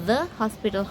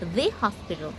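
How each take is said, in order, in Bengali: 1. আর্টিকেলটি হ্রস্ব 'thuh' স্বরধ্বনি দিয়ে উচ্চারিত হয়। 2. আর্টিকেলটি দীর্ঘ 'thee' স্বরধ্বনি দিয়ে উচ্চারিত হয়। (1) "দ্য হসপিটাল হওয়ার কথা" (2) "সে বলছে দি হসপিটাল"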